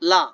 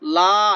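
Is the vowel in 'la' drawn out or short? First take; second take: short; drawn out. First: The vowel is short and plain. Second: The vowel is drawn out long. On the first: The speaker calls it right. "নরমাল লা" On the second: The speaker calls it wrong. "লা এরকম বলা যাবে না"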